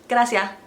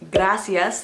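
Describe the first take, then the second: First: The final s is dropped. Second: The final s is pronounced.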